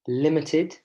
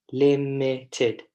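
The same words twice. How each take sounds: First: Said in the usual way. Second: "limited" broken into three separate syllables. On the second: Shown as a demonstration. Teacher shows class how to count syllables, syllable by syllable. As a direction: say "limited" slowly, beat by beat: lim-i-ted. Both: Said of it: "tell me how many syllables".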